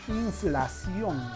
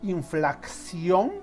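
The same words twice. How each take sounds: First: No extra k sound comes before the s sound. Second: An extra k sound is added before the s sound. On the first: The speaker calls it right. "Lo correcto es decir inflación simplemente" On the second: The speaker calls it wrong. "se ha añadido una C"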